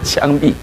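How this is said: It is pronounced qiangbi, with a Fujian accent. It sounds like the word for execution. The speaker calls it wrong. "他福建话发音是枪毙"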